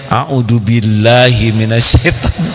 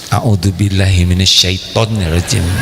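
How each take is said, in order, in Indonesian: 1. Frasa itu diucapkan dengan suara keras, terbuka, dan jelas. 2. Frasa itu diucapkan dengan pelan, di bawah napas.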